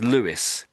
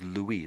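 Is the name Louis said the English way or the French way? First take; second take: English; French. First: The name is pronounced the English way. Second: The name is pronounced the French way. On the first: "sometimes the English will say this name as Louis" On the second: "the French way"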